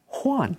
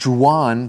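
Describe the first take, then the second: First: The name begins with an H sound. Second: The name begins with a J sound. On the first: The speaker calls it right. "actually it sounds more like an H" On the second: The speaker calls it wrong. "some people might think it's Juan"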